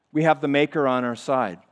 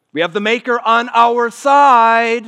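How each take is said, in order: First: Said in the usual way. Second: Higher, much louder, slow proclamation; triumphant preached cry; slow, booming declaration. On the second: Acted. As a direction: lean on every word from the pulpit. Preaching climax.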